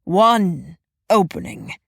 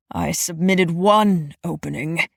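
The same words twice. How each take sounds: First: "One" hit hard with a fall, low and slow; slow low growl, "One" falling firmly; stress on one, falling. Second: "one" stressed with a rise, low and slow; low growl, lean on "one". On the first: Repeats with falling emphasis. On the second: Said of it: "he growled to himself". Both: A narrator's reading.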